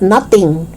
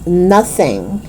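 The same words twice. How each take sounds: First: "nothing" as "nutting"; hard T in "nothing". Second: Tongue out mid "nothing"; TH sound. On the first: Teacher showing learners the mistake, "nothing" with T. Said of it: "It's not nothing". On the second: Teacher correcting learners, "nothing" with clear TH. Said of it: "It's nothing". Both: Shown as a demonstration.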